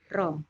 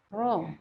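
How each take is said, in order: First: The r sound is still somewhat thin. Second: The r sound is thick and heavy. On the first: The speaker calls it wrong. "Kalau gitu kan masih ada tipisnya ya" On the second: The speaker calls it right. "kita harus merasakan tebalnya"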